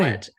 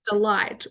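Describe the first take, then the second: First: The second syllable sounds like 'lit'. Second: The second syllable sounds like 'light'. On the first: The speaker calls it right. "the pronunciation of our last name, which is" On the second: The speaker calls it wrong. "people would um, mistake the pronunciation"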